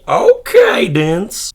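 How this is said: The word is said with a surprised, impressed inflection. The speaker calls it right. "It has to be okay-dence"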